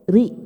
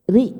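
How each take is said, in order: The two takes are said the same way.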